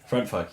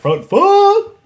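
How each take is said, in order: First: The phrase is said quietly and calmly. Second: The phrase is yelled loudly. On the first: It sounds creepy. The speaker calls it wrong. "it sounds a little creepy" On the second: It sounds fun. The speaker calls it right. "you have to yell it"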